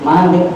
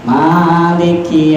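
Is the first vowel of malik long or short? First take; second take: short; long. First: The first vowel is said short. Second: The first vowel is drawn out long. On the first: "kita dibaca pendek" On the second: "wajib kita panjangkan"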